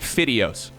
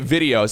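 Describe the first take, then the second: First: The word starts with a voiceless f sound. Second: The word starts with a voiced v sound. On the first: The speaker calls it wrong. "I would say videos" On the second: The speaker calls it right. "I would not say videos"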